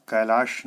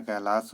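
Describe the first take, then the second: First: कैलाश ending in a "sh" sound; wrong pronunciation. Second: कैलाश ending in a plain "s", kailaas; correct pronunciation. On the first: Teacher voices the error, loud कैलाश ending in "sh". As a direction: hit कैलाश loudly with final "sh". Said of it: "नहीं होता है". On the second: Teacher gives the right form, कैलाश ending in "s". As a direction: say कैलाश with final "s", not "sh". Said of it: "होता है". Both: Shown as a demonstration.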